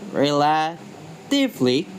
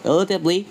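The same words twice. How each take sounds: First: "relatively" slowly, broken into parts; syllable-by-syllable stress demo. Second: Said in the usual way. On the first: Shown as a demonstration. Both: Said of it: "The stress usually jumps to the syllable".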